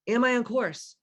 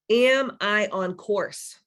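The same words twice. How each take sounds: First: Said in the usual way. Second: Slow, drawn-out self-question; slow reflective question. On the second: Shown as a demonstration. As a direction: ask it slowly, letting it sink in. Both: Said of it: "We're gonna do some guided meditation".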